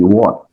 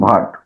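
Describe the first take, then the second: First: The word starts with a plain w, no h. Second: The word starts with an audible h-like breath. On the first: The speaker calls it right. "इसमें एच का आवाज ही नहीं निकलना चाहिए" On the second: The speaker calls it wrong. "कुछ लोग इसे खराब कर देते हैं"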